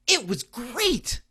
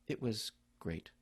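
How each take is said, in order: First: High, slow and loud, really thrilled; enthusiastic. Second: Low, soft and slow, dejected; glum. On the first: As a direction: say it like great news, higher, louder and slower. Son answers enthusiastically. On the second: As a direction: say it flat and defeated, lower and softer. That's got one meaning. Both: Retold or imitated.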